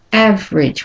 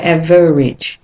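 First: "average" as two syllables, AV-rij; schwa dropped. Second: "average" as three syllables, AV-uh-rij; over-pronounced "average" with an extra vowel; wrong, full middle syllable. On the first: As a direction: lose the middle vowel in "average". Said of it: "It's almost like lost". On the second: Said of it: "We don't say average". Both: Shown as a demonstration.

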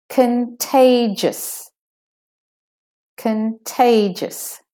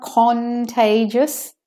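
First: Contagious as kuhn-TAY-jus, short schwa in con; slow, high TAY in contagious, con squeezed short; squished first syllable. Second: Contagious as CON-tay-jus, full O in CON; high, drawn-out CON at the start of contagious; unreduced first syllable. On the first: Teacher repeating for learners, shortened con in contagious. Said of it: "the syllable is squished and made shorter". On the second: Teacher showing what it's not, over-pronounced CON in contagious. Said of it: "So it's not contagious". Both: Shown as a demonstration.

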